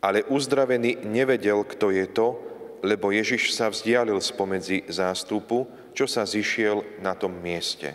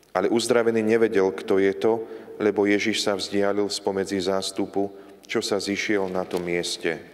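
The two takes are said the same way.

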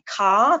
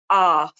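First: The word begins with a k sound. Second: The word begins with a vowel. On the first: "rather than saying car" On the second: "they might omit sounds altogether"

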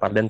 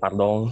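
First: The word ends with a plain n sound. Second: The word ends with a nasal 'ong' vowel. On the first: The speaker calls it wrong. "Tapi bukan pardon" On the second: The speaker calls it right. "Pakai ong"

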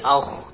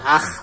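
First: The kha sound is heavy and thick. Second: The kha sound is light and thin. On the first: The speaker calls it right. "akh ditebalkan" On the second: The speaker calls it wrong. "Tidak dibaca akh"

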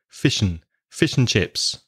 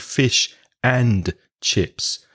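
First: The word 'and' is reduced to a short 'n'. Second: The word 'and' is pronounced in full. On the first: The speaker calls it right. "The and becomes just fish and chips" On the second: The speaker calls it wrong. "We don't usually say fish and chips"

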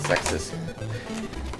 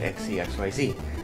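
First: The name is said as one word. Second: The name is said as separate letters. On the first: The speaker calls it right. "I finally figured out how to pronounce it as Zexus" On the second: The speaker calls it wrong. "Back in the first one, I pronounced it XCXYZ"

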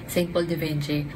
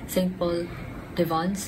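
First: The last word is said like 'Vinci'. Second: The last word is said like 'Vons'. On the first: The speaker calls it wrong. "I ended up pronouncing the perfume name" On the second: The speaker calls it right. "I actually searched yung pronunciation nito. It's"

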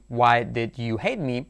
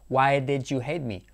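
First: Each word of 'did you' is said fully. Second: 'Did you' is squeezed into one reduced syllable. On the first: "sin contraer de ninguna manera" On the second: "haciendo la contracción de más"

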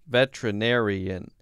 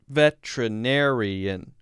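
First: The word is said with five syllables. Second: The same.

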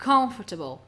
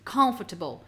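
First: The stress falls on the first syllable. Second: The same.

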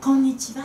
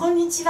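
First: The final sound trails off softly. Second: It is said crisply with a clear ending.

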